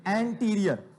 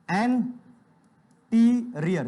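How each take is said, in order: First: Said in the usual way. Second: Teacher slowly drawing out anterior; drawn-out term. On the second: Shown as a demonstration. Teacher drills students, slowly stretching anterior. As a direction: stretch every syllable slowly. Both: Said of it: "क्या बोलते हो बेटा?".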